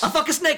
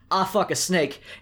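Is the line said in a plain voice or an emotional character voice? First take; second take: character voice; plain. First: It is said in an emotional character voice. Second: It is said in a plain, unemotional voice. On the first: The speaker calls it right. "Let me center myself. You hear this" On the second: The speaker calls it wrong. "I need a retake on that"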